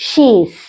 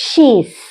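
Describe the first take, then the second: The two takes are said the same way.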